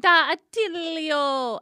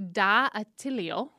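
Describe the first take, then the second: First: "Da Attilio" stretched out slowly, higher and louder, with a falling end; mock Italian flourish. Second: "Da Attilio" said slowly with a rising end, unsure of the accent; sounding out "Da Attilio" carefully, like a question; first try at the name. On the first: Host retries the restaurant name, slow, loud mock Italian. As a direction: ham up "Da Attilio" like a proud Italian waiter. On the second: Host unsure how to say the restaurant name, slow and tentative. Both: Shown as a demonstration. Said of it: "I don't know where to put the accent".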